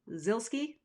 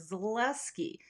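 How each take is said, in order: First: The name is said short and simple. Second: The name is said with an added syllable. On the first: The speaker calls it right. "Now it's just Zilski. Sounds like Pilski" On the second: The speaker calls it wrong. "A lot of people overpronounce the Zilski like"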